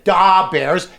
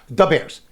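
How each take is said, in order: First: The first word is drawn out and exaggerated. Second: The first word is said short and quick. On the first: This is an exaggerated TV imitation. The speaker calls it wrong. "They over accentuate it" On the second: This is how locals really say it. The speaker calls it right. "we say it fast"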